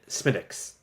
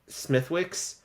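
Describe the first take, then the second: First: The W sound in the middle is silent. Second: The W sound in the middle is pronounced. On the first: This is how the name is properly pronounced. "but you pronounce it Smithwick's, right? Uh, like you don't s- say the W" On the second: This is how the name looks from its spelling. "It looks like it's um"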